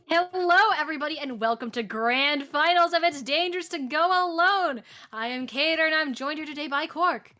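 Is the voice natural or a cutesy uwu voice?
natural. It is said in a natural voice.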